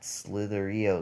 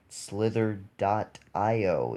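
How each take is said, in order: First: The parts run together without saying dot. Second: The word dot is spoken between the parts. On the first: The speaker calls it wrong. "It's not Slitherio" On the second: The speaker calls it right.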